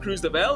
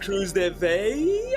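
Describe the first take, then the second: First: The double L is pronounced as an L sound. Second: The double L is pronounced as a Y sound. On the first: The speaker calls it wrong. "it's not Cruz de Bell" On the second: The speaker calls it right. "the double L in like Spanish is a Y"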